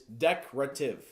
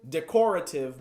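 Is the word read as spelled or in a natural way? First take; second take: natural; as spelled. First: The word is pronounced in its natural spoken form. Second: The word is pronounced just as it is spelled. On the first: "the way that you're supposed to say it" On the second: "It is written decorative"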